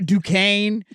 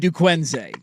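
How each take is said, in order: First: The S in the name is silent. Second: The S in the name is sounded. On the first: This is the usual way the name is said. "we have an S in here we're not going to pronounce" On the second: This is the cooler, joke version of the name. "Their name should be Duquenze"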